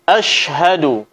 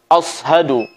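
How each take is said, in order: First: The middle consonant is a 'sh' sound. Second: The middle consonant is a heavy 's' sound. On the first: The speaker calls it right. "Suara shin yang keluar dari tengah lidah" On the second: The speaker calls it wrong. "Bukan ashadu yang menyerupai suara huruf sad"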